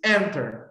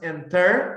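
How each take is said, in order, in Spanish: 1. El acento está en la primera sílaba. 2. El acento está en la segunda sílaba. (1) "es enter ... la primera sílaba está cargada y no la segunda" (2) "No es enter"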